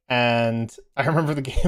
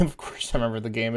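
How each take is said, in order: First: Said in the usual way. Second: "I" in "of course I remember the game" given a light extra push; stress on I. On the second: Real, not acted. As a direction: lean a little on "I" as if it's obvious.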